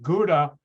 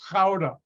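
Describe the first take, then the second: First: It is said with an American English pronunciation. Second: It is said with a Dutch pronunciation. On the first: The speaker calls it wrong. "Americans pronounce it Gouda" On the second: The speaker calls it right. "No, it's Gouda"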